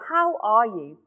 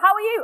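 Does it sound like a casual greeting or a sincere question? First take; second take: sincere question; casual greeting. First: It sounds like a sincere, caring question. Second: It sounds like a quick, casual greeting.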